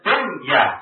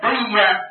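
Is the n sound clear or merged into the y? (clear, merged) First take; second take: clear; merged. First: The n sound is pronounced clearly before y. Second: The n sound is merged into the y. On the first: The speaker calls it right. "nunnya jelas" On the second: The speaker calls it wrong. "Kenapa kita tidak baca dunia?"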